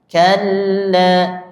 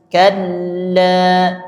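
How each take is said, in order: The two takes are said the same way.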